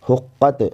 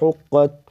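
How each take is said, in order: First: The final consonant bounces with an echoing sound. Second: The final consonant stops cleanly without an echo. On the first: The speaker calls it wrong. "हुक्कत नहीं पढ़ेंगे" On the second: The speaker calls it right. "बल्कि"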